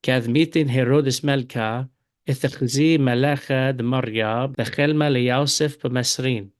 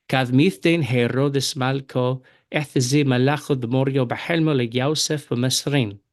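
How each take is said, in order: First: Syriac read with the Eastern accent, Malka and bechelma. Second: Syriac read with the Western accent, Malko and bahelmo. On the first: Teacher reads the same verse to students in Eastern Syriac accent. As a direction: Eastern Syriac reading, the a vowels. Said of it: "And now in the Eastern accent". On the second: Teacher reads the verse to students in Western Syriac accent. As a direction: Western Syriac reading, the o vowels. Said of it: "I'll begin reading with the Western accent". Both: Shown as a demonstration.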